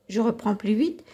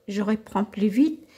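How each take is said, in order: The two takes are said the same way.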